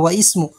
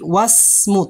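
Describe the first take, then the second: First: The i-vowel of ismu is pronounced separately. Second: The i-vowel is dropped, linking into smu. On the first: The speaker calls it wrong. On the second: The speaker calls it right.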